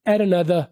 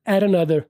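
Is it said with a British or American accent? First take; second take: American; American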